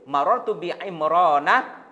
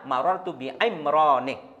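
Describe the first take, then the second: First: The name ends in an 'a' vowel. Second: The name ends in an 'i' vowel. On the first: The speaker calls it right. "juga tidak boleh ditanwin" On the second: The speaker calls it wrong. "Jadi salah kalau dibaca"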